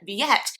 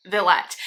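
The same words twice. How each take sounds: First: Villette as vee-ET, no L sound; French-style pronunciation. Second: Villette corrected to vil-ET, L sounded; Anglicized pronunciation. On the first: Speaker borrows her French-speaking friend's way, Villette as vee-ET. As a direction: glide through Villette, "vee-ET". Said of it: "My friend Mandy had been using Villette". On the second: Speaker corrects herself to the theater's way, Villette with an L. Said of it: "they do pronounce it Villette". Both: Shown as a demonstration.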